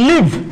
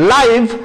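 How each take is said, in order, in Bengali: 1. স্বরধ্বনিটি ছোট 'ih' উচ্চারণ। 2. স্বরধ্বনিটি লম্বা 'eye' উচ্চারণ। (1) "তখন এর অর্থ হয়ে যাবে বাস করা" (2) "লাইভ মানে জীবন্ত"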